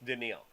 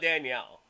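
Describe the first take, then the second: First: The name is said like Daniil. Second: The name is said like Danielle. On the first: The speaker calls it right. "It's Daniil" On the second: The speaker calls it wrong. "It's not Danielle"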